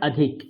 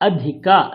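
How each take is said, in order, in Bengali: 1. শব্দটি শেষ স্বরধ্বনি ছাড়া, সংক্ষেপে শেষ হয়। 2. শব্দটি পূর্ণভাবে উচ্চারিত একটি স্বরধ্বনি দিয়ে শেষ হয়। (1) "নট" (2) "পূর্ণ উচ্চারণ"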